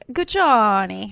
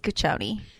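First: The name is said in an Italian way. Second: The name is said in a plain English way.

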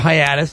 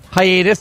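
First: It is said with an East Coast pronunciation. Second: It is said with a general pronunciation.

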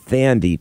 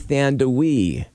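First: It ends in a plain 'dee' with no 'w'. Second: It ends in 'dawee' with a 'w' sound. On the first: The speaker calls it wrong. "I've always heard her name pronounced and spelled Thandie" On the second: The speaker calls it right. "It's actually Thandawee"

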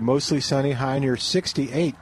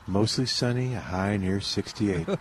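First: It is read in a plain, ordinary way. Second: It is read in a calm, soothing way.

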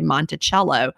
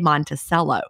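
First: It is said the way Virginians say it. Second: It is said the way Georgians say it.

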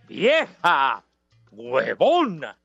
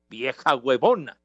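First: It is said with flair and energy. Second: It is said flatly, without much energy.

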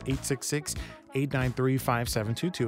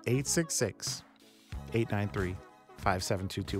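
First: The number is said at normal speed. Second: The number is said slowly.

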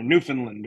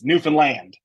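First: The final syllable is not stressed. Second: The final syllable carries the stress. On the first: The speaker calls it wrong. "in my good old New England accent, I would probably pronounce it like" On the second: The speaker calls it right. "they're very, very specific that it's Newfoundland. Like, oh, wow. Land is where"

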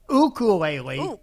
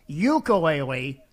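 First: The word has its traditional local Hawaiian pronunciation. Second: The word has a non-local, non-traditional pronunciation. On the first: The speaker is from Hawaii. The speaker calls it right. "his traditional pronunciation ... That's right" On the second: The speaker is not from Hawaii. The speaker calls it wrong. "If you say ukulele, then you ain't local"

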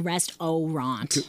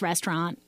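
First: Every syllable is said fully and separately. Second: The middle syllable is squeezed together and reduced. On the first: It helps with remembering the spelling. "you got to do phonetically" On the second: It is how people normally say it. "It's an elision when we say it"

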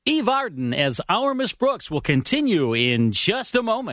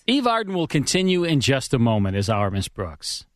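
First: It is said with more flair and energy. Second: It is said plainly, with little energy.

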